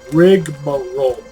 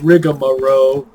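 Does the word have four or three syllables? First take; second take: three; four. First: The word is said with three syllables. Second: The word is said with four syllables. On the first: The speaker calls it right. "that is the correct way to say that" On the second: The speaker calls it wrong. "It's not rigmarole, as most people, including myself, tend to say"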